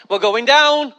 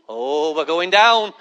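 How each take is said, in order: First: Mock alarm. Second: Long, low drawn-out dread; dawning dread. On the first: Passenger in turbulence, mild mock alarm. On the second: Acted. Passenger in turbulence, low slow dread. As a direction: let the words stretch out slowly and low.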